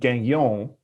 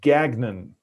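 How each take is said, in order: First: The name is said with a French pronunciation. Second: The name is said with an English pronunciation. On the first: This follows the name's French origin. "that's the French pronunciation" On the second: This is how the person himself says it. "he pronounces it Gagnon"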